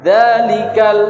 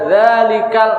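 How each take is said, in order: First: The d sound is voiced clearly and firmly. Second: The d sound is weak and vague. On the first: The speaker calls it right. "dalikal itu harus jelas" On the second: The speaker calls it wrong. "bukan dalikal ngambang"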